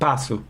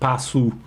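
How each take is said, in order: First: The word ends in a weak, lax u. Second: The word ends in a full, clear u. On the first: The speaker calls it right. "but passo" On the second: The speaker calls it wrong. "Not U, passo"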